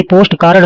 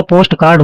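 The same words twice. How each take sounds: First: कार्ड broken into "kaa-rad"; extra-vowel कार्ड. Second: कार्ड as one syllable, "kaard"; clean कार्ड. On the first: Teacher showing the error, "kaarad" for कार्ड. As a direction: slip a short a between r and d in कार्ड. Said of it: "नहीं होता". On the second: Teacher correcting, no extra vowel in कार्ड. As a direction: join r and d directly in कार्ड. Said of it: "post कार्ड होता है". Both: Shown as a demonstration.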